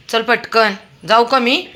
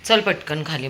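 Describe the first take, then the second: First: Loud, high call to the dog. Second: Said in the usual way. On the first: Real, not acted. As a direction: hurry him along with a sharp call. Calling dog to hurry. (कुत्र्याला मोठ्याने हाक)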